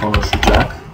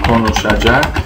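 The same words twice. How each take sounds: First: A vowel is dropped, so it is shorter. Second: Every syllable is pronounced fully. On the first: This is the colloquial spoken form. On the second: This is the standard written form.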